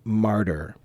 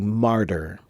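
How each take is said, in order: Both takes have the same delivery.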